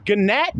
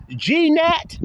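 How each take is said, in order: First: Gnat as guh-NAT, G sounded, high and questioning; mocked mispronunciation. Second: G-nat as jee-NAT, very high and rising; mocked mispronunciation. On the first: Mocking classmate for reading it wrong, incredulous guh-nat. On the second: Mocking classmate's second wrong try, incredulous gee-nat. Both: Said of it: "pronouncing this shit wrong".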